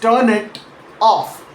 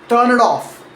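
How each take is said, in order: First: Each word is said separately with small gaps. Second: The words run together, sounds sliding into each other. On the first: The speaker calls it wrong. "Said carefully, word by word" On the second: The speaker calls it right. "in natural, connected speech"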